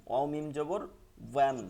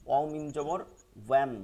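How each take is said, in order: The two takes are said the same way.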